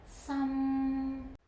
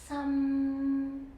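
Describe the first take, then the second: Both takes have the same delivery.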